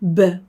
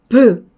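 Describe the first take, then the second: First: Only a faint vowel follows the consonant. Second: A full vowel sound follows the consonant. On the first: The speaker calls it right. "으를 약하게 해주면 브" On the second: The speaker calls it wrong. "비읍하고 비슷하니까 브"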